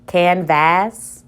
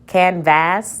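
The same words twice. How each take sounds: First: The second syllable has a full short a vowel. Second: The second syllable has a full short a vowel.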